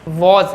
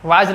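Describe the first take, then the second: First: The vowel is a rounded 'aw' as in law. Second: The vowel is an open 'aa' as in father. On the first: The speaker calls it right. "वॉज है" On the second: The speaker calls it wrong. "वाज नहीं है"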